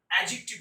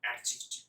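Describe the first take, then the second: First: অ্যাডজেক্টিভ as a-jik-tiv, d silent; no d before the j in অ্যাডজেক্টিভ; correct pronunciation. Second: অ্যাডজেক্টিভ with an audible d, ad-jik-tiv; sounded d in অ্যাডজেক্টিভ; wrong pronunciation. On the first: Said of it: "অ্যাডজেক্টিভ উচ্চারণ করবো". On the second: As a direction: stop on the d before j in অ্যাডজেক্টিভ. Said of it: "আমরা কখনোই করবো না". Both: Shown as a demonstration.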